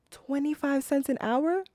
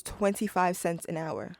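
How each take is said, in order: First: High-pitched, disbelieving question; scandalized echo, pitched way up; incredulous. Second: Said in the usual way. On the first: Acted. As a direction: repeat it in disbelief, rising sharply at the end. Outraged reaction to the figure.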